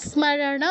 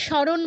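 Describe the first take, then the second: First: Slow স্মরণ as smarana, m heard; sounded m. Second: স্মরণ as shoron, m dropped; wrong silent m. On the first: Teacher corrects for students, slow smarana with m sounded. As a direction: draw out স্মরণ with s plus m. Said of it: "মটা উচ্চারণ করতে হবে". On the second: Teacher warns students, স্মরণ with silent m. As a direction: say স্মরণ the Bengali way without m. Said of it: "বলা যাবে না". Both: Shown as a demonstration.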